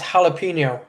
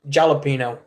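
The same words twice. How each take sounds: First: The first sound is a breathy H. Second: The first sound is an English J. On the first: The speaker calls it right. "there is no J in the Spanish alphabet. That's why it's jalapeno" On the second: The speaker calls it wrong. "not jalapeno"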